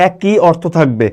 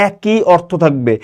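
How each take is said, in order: Both takes have the same delivery.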